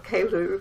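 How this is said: The name is said with a French pronunciation.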